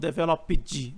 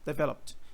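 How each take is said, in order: First: The ending does not sound like a T. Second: The ending sounds like a plain T. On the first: The speaker calls it wrong. "não é developed ou developed" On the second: The speaker calls it right. "é com som de T"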